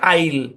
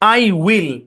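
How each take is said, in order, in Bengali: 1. এটা একটি ছোট উচ্চারণে মিশে যায়। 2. এটা দুটি আলাদা পূর্ণ শব্দ হিসেবে বলা হয়। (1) "উচ্চারণ হচ্ছে" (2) "বাম পাশের উচ্চারণ কি?"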